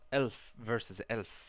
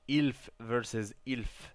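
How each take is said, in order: First: The vowel in elf sounds like eh. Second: The vowel in elf sounds like ih.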